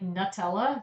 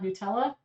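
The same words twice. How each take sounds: First: The first syllable sounds like 'nut'. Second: The first syllable sounds like 'new'. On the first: "isn't it pronounced like Nutella" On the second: "not Nutella"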